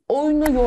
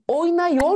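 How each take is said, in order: First: The vowel before -yor is a narrow 'u'. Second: The vowel before -yor is a wide 'a'. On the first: The speaker calls it right. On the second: The speaker calls it wrong.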